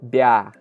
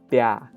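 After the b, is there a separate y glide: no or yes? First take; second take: no; no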